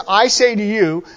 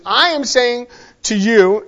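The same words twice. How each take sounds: First: Said in the usual way. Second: Slow, deliberate weight on "I"; emphatic stress on I. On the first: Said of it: "So when you see this". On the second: Shown as a demonstration. Preacher explaining Jesus's wording, slow and emphatic. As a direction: measure out the words, leading with a firm "I". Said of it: "put as, it's very emphatic".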